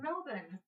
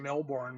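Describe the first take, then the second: First: The r sound is left out. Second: The r sound is clearly pronounced. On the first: This is how the locals say it. The speaker calls it right. "It's Melbourne. ... they don't even say the R" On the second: This is how it is read by people who see it written. The speaker calls it wrong. "we look at it and say Melbourne when we see it"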